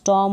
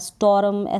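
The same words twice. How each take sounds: First: The r sound is dropped or barely heard. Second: The r sound is clearly pronounced. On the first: The speaker calls it right. "स्टॉर्म हो गया" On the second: The speaker calls it wrong. "स्टॉर्म ऐसे बोल देंगे तो गलत हो जाएगा"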